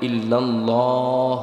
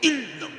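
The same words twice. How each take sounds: First: It is said smoothly with a full, heavy l. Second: It is pushed out hard with a forceful breath. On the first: The speaker calls it right. "মোটা করে পড়ার জন্য" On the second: The speaker calls it wrong. "মানে কি জোরে ঠেলা মারে"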